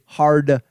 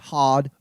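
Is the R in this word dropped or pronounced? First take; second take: pronounced; dropped. First: An American accent with the R pronounced. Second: An English accent with the R dropped. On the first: "We say hard" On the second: "they say hard"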